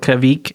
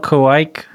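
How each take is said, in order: First: The word is said in an alternative pronunciation. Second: The word is said in the usual pronunciation. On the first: The speaker calls it wrong. "if you want to pronounce it incorrectly" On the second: The speaker calls it right. "still Kvik"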